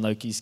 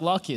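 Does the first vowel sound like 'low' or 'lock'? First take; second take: low; lock. First: The first vowel sounds like 'low'. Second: The first vowel sounds like 'lock'.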